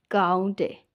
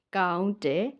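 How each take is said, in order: Both takes have the same delivery.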